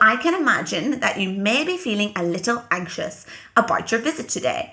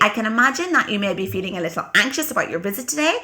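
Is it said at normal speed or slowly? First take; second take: slowly; normal speed. First: It is said more slowly. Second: It is said at normal speed.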